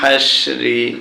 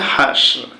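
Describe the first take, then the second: First: The word ends with a short i vowel. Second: The word ends on the r consonant. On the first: The reading continues without stopping. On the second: The reader stops at this word.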